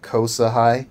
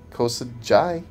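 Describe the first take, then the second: First: The middle consonant is an H sound. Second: The middle consonant is a J sound. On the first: "We'll pronounce that like an H" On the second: "or is that J pronounced?"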